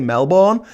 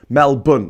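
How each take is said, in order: First: The last syllable has a full 'born' vowel. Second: The last syllable sounds like 'bun'. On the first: The speaker calls it wrong. "when people say Melbourne, it annoys me" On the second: The speaker calls it right. "it's pronounced Melbourne, as in a bun"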